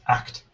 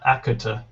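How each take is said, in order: First: The consonants are clustered with no added vowels. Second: Extra vowels are inserted between and after consonants. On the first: The speaker calls it right. "It's act" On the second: The speaker calls it wrong. "not akuta"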